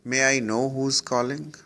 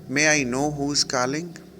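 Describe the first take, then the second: No difference in how they are said.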